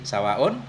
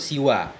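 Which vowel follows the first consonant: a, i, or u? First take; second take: a; i. First: The first vowel is a, with a long ending. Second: The first vowel is i. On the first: "Wa fathis sini dan dengan fathah sin" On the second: "Bil kasri, maksur"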